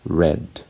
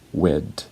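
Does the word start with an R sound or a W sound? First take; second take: R sound; W sound. First: It starts with a clear R sound. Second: It starts with a W-like sound. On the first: "the word red" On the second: "they're saying wed"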